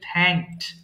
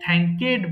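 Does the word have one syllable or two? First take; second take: one; two. First: The ending is a plain t with no extra syllable. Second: The ending is said as an extra syllable. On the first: The speaker calls it right. "এটা হবে থ্যাংকড" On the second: The speaker calls it wrong. "এটাও ভুল করে অনেকে থ্যাংকেড বলে ফেলে"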